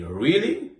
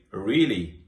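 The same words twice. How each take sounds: First: "really" rising high at the end. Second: "really" with falling, uninterested tone; flat "really". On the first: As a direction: ask "really" as a genuine question, voice going up. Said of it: "with my voice going up at the end". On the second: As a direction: say "really" flatly, dropping at the end. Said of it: "in a flat voice". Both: Shown as a demonstration.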